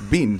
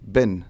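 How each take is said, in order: First: The vowel is long, rhyming with 'bean'. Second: The vowel is short, rhyming with 'bin'. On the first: This is how it is said back home. "it's not bin, it's bean" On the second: This is how it is said locally. "because it's pronounced bin"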